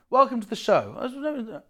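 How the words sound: It sounds flat and insincere.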